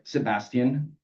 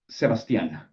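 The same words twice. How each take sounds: First: Said in the usual way. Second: Put-on Sebastian with the final -an accented; stress on last syllable. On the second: Narrator correcting his name, Sebastian stressed on the end. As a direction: lean on the -an of Sebastian. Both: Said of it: "Stress on the last syllable".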